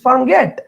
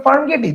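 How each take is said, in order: First: farm গেট with silent final e; correct spoken form. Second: farm গেটি ending in a sounded "ee"; the literal spelling read out as farm গেটি; wrong literal pronunciation. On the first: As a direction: say গেট as one syllable, "get". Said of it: "this is". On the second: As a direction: say গেটি in two syllables, "ge-tee". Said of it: "this is not". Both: Shown as a demonstration.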